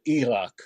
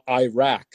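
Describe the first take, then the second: First: It is said with a non-American pronunciation. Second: It is said with an American pronunciation. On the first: The speaker calls it right. "instead of Iraq" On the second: The speaker calls it wrong. "all the Americans saying Iraq"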